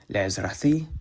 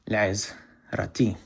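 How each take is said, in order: First: The last consonant is a soft th sound. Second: The last consonant is a plain t sound. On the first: This is the traditional pronunciation. "I said le'izrathi because that's how they say in the Chosen pronunciation of Hebrew" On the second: This is the modern pronunciation. "instead of le'izrati"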